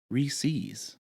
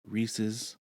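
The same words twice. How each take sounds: First: The name is pronounced an altered way. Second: The name is pronounced the usual way. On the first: The speaker calls it wrong. "All the girls somehow have adapted it to Reese's" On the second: The speaker calls it right. "If you say it that way, you are correct"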